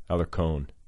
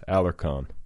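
First: The name is said with an American pronunciation. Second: The same.

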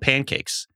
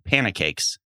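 First: No extra syllable is added after pan. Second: An extra syllable is added after pan. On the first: The speaker calls it right. "They're called pancakes" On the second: The speaker calls it wrong. "called them panacakes"

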